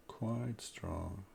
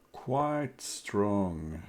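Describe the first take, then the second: First: Much softer, thoughtful echo of "Quite strong" with a rise; quiet musing repeat. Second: Said in the usual way. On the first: Real, not acted. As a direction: mutter "Quite strong" to yourself, rising at the end.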